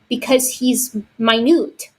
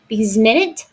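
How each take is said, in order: First: Minute is said like my-newt, meaning small. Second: Minute is said like min-it, the unit of time. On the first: The speaker calls it right. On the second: The speaker calls it wrong.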